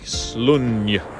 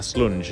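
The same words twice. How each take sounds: First: The final consonant is a Y sound. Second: The final consonant is an English J sound. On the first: "the J is probably pronounced with a Y" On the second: "Slunj is how I call it"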